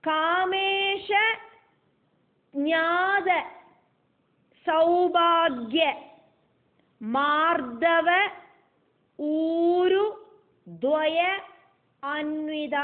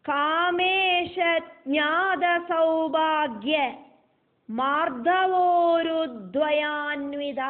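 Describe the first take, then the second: First: Each word part is said separately and unjoined. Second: The word parts are joined together by merged vowels.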